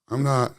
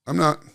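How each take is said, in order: Both takes have the same delivery.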